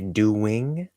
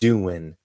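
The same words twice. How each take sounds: First: The word ends with a full 'ing' sound. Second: The word ends with a reduced 'in' sound. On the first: "you don't have to say doing" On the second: "You can just say doing"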